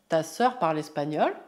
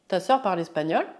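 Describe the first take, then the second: Both takes have the same delivery.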